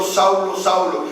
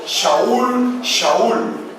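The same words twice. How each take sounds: First: "Saulo" pronunciado a la española; forma equivocada. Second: "Shaul" con sh hebrea y llamada alta; en hebreo. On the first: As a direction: di "Saulo" con s española, sin sh. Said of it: "no estaba diciendo". ("Saulo" dicho en español) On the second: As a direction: clama "Shaul" con sonido sh, en alto. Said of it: "estaba diciendo". ("Shaul" pronunciado en hebreo) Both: Shown as a demonstration.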